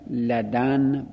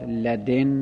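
First: The d is followed by an a vowel. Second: The d is followed by an i vowel. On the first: "لدن با فتح دال" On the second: "لدن با کسر دال"

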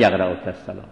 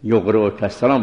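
First: The verb begins with an 'a' vowel. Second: The verb begins with a 'u' vowel. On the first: The speaker calls it wrong. "نه" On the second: The speaker calls it right. "باید"

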